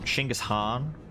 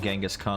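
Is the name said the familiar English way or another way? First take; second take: another way; familiar English. First: The name is said an unfamiliar, different way. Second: The name is said the familiar English way. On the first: The speaker calls it right. "that pronunciation is, is more accurate" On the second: The speaker calls it wrong. "it shouldn't be pronounced that way"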